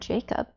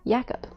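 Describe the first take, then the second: First: The name is said with an American pronunciation. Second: The name is said with a non-American pronunciation. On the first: The speaker calls it right. "that's the American pronunciation" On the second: The speaker calls it wrong. "I see the K in my mind, it just automatically goes"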